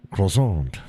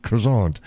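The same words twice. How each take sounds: First: "croissant" as kro-SAHNT; "croissant" kro-SAHNT, falling; Americanized croissant. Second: "croissant" as kro-SAHNT; "croissant" kro-SAHNT, falling; another croissant take. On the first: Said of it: "you go like". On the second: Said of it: "we say croissant". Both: Shown as a demonstration.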